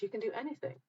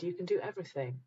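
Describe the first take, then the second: First: "anything" stressed with a rising lift; correct version. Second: "everything" leaned on, softly; misheard version. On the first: Host correcting the call to action, lightly raised. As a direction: say it as "You can do anything." with a lift. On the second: Host contrasting the misheard call to action. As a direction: say it as "You can do everything.". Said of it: "We just misheard it". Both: Shown as a demonstration.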